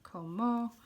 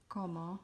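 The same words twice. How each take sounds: First: "como" with the stress wrongly moved onto the last o, ko-MO; the misreading, "como" stressed on the final syllable; mistaken stress. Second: "como" with stress on the first o, KO-mo; teacher says "como" stressing the first syllable, KO-mo; correct Spanish stress. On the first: Teacher shows the wrong reading of "como", ko-MO. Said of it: "you might think it's". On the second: Teaching Spanish stress on "como", KO-mo. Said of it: "in the word". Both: Shown as a demonstration.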